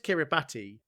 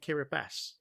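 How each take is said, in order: First: The name is pronounced exactly as it is spelled. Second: The name is pronounced differently from its spelling. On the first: This is how the written form reads. "it says Kiribati" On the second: This is how people are heard saying it. "I've heard people pronounce it Kiribati"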